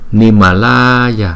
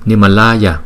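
First: The 'la' vowel is drawn out very long. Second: The 'la' vowel is only slightly lengthened. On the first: This length is not needed in normal recitation. "không cần đọc kéo dài như Nimalaya" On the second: This is how it is said in normal recitation. "Nimalaya thì lại là chỉ đủ rồi"

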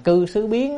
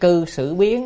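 First: The middle syllable has a high rising tone. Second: The middle syllable has a dipping tone. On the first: One must change one's place of residence. "đọc thành cư xứ biến" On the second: One's conduct must change. "Nếu đọc là sử, cư xử là những cái hành động của mình"

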